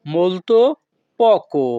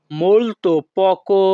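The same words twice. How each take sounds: First: Said in the usual way. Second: "molto poco" said slowly and clearly; slow repeat. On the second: Shown as a demonstration. Teacher repeating for students, slow and careful.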